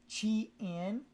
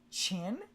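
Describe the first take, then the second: First: It is split into two separate syllables. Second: It is blended into one single syllable. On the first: "pronouncing it separately and enunciating each part as" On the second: "bleed it into a single sound"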